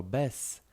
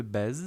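First: Bez said as bes, ending on a sharp s; correct bes. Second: Bez with a voiced z at the end; wrong bez. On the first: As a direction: say bez with a hissed s, not a z. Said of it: "piszemy to używając litery s". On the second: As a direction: say bez ending on a clear z sound. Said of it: "nie mówimy bez". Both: Shown as a demonstration.

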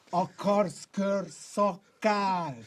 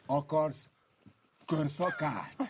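First: Very slow drawn-out taunt. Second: Said in the usual way. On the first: Real, not acted.

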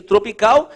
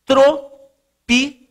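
First: Said in the usual way. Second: TROPICAL higher, in three slow separate syllables; sílaba por sílaba. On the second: Real, not acted. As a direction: dictate "tropical" with long gaps between syllables. Dita a palavra enquanto escreve. ("tropical" ditado pausadamente, sílaba por sílaba)

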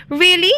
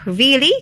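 First: High questioning, lightly menacing; a touch of wolfish menace on a high rise; mild snarl. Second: Slightly high, rising question; a touch of surprise, lightly cried; mild cry. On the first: Wolf chasing Rabbit, understated snarl. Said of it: "snarled the wolf". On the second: Rabbit answers Wolf back, mild cry. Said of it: "cried Rabbit". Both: A narrator's reading.

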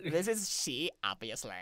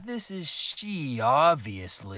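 First: Put-on copying the Valley Girl line, lightly; lightly voiced Valley Girl take; Valley Girl accent. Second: Put-on Valley Girl accent. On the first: Shown as a demonstration. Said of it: "you do a Valley Girl accent with it, like that". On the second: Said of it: "you do a Valley Girl accent with it".

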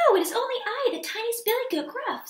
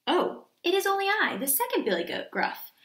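First: High, tiny little-goat voice; very small voice. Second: Middle-sized goat, lightly voiced; a little goat voice, only slightly raised; not so small voice. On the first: Tiniest goat answering the troll, very small high voice. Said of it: "in his very small voice". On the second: Second goat answering the troll, not so small a voice. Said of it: "his voice was not so small". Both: A narrator's reading.

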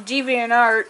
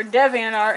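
First: DeviantArt with a long "dee" opening; first pronunciation. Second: DeviantArt with a short "dev" opening; alternative pronunciation. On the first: Viewer naming a website, DeviantArt said with "dee". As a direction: say DeviantArt as DEE-vee-ant-art. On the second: Viewer correcting a website name, DeviantArt said with "dev". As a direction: say DeviantArt as DEV-ee-ant-art. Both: Shown as a demonstration. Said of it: "however the fuck you wanna pronounce it".

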